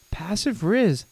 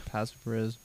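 First: High, singsong taunt; playful teasing. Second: Very soft interjection; quiet aside. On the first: Pretend. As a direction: draw it out in high teasing swoops. Teasing Steve in high swoops. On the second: Real, not acted. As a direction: slip it in under the story. Muttered aside during the story.

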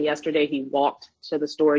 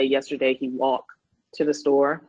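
First: Said in the usual way. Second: "walked" said as "walk", no -ed ending; "Yesterday he walked" with the final -ed left off; dropped past tense ending. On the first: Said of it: "instead of saying". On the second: Shown as a demonstration. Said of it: "you might hear children say".

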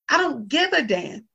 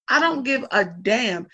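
First: Higher, emphatic defiance; defiant. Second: "I don't give a damn" drawn out slowly and firmly; slower repeat. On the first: Talking about her granny, a defiant, emphatic line. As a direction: toss off "I don't give a damn" up high. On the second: Telling the family, a slow, firm repeat. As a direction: lay it down slowly, final. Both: Real, not acted. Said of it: "repeated for emphasis".

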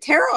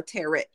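First: First "tarot" of the either-or question, said one way; alternative pronunciation. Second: Second "tarot" said differently from the first; alternative pronunciation. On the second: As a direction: offer "tarot" as the other pronunciation option. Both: Shown as a demonstration. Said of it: "is it tarot or tarot".

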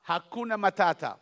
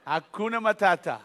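The two takes are said the same way.

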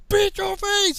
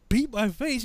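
First: High, loud sergeant command; barked repeat. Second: Higher, questioning recruit; mildly acted confusion; puzzled echo. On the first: Retold or imitated. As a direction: yell the order at a slow recruit. Sergeant repeats order, louder. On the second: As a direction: repeat the order back, baffled. Confused recruit repeats order.

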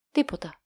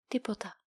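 First: Curt, dry single word Τίποτα; dry reply. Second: Τίποτα repeated much softer, dazed; stunned echo. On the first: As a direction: drop Τίποτα flatly, bored official. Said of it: "του απαντά ξερά". (ξερή, κοφτή απάντηση) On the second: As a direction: let Τίποτα fall away in disbelief. Captain stunned by the answer. (σαστισμένη, πολύ σιγανή επανάληψη) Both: A narrator's reading.

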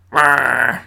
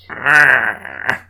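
First: Reindeer voice. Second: Growling reindeer roar; a short beastly growl. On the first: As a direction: growl it like a grumpy reindeer. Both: Acted. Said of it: "That's my reindeer voice".

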